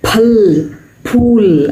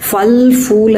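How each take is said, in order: First: The words begin with an aspirated p. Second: The words begin with an f sound. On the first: The speaker calls it right. "அதுதான் correct" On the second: The speaker calls it wrong. "எல்லாம் தப்பு"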